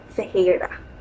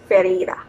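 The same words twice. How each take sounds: First: The double R sounds like an H. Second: The double R is an English R sound. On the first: "but in Brazil it's Ferreira" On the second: "in English it's Ferreira"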